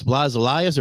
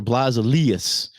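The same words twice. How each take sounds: First: Elias said "ee-LIE-us"; long I in Elias. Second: Elias said "ee-LEE-us"; long E in Elias. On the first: Checking drummer's name, [name] as ee-LIE-us. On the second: Offering drummer's other name reading, [name] as ee-LEE-us. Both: Shown as a demonstration.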